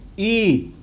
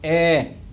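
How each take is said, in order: First: The vowel sounds like 'ee'. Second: The vowel sounds like 'eh'. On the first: The speaker calls it wrong. "they say E. It's not E" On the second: The speaker calls it right. "It's eh"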